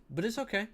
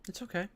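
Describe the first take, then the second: First: High sing-song. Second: High reassuring repeat. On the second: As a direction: say it again gently, high. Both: Shown as a demonstration.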